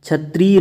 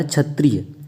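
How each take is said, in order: First: क्षत्रिय with a long "tree". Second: क्षत्रिय with a quick "tri"; short i. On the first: Teacher saying what it isn't, long ee in क्षत्रिय. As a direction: stretch क्षत्रिय into "chhatreey". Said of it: "नहीं होता है". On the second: Teacher giving the correct form, short i in क्षत्रिय. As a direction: keep क्षत्रिय short, falling at the end. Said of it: "क्षत्रिय नहीं होता है". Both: Shown as a demonstration.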